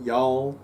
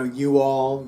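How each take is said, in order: First: "y'all." run together as one syllable; contracted y'all. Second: Said in the usual way. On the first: Shown as a demonstration. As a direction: say "y'all." as a single drawled word, not two. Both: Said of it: "You know, you all, y'all".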